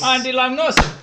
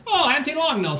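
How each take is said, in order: First: High, loud sing-song call; sing-song greeting. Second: High, loud sing-song greeting. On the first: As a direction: echo it as a cheery greeting. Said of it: "Like that?". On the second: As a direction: call it out like a cheery greeting. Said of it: "Is that like a greeting?". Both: Pretend.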